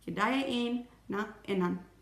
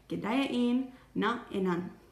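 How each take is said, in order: The two takes are said the same way.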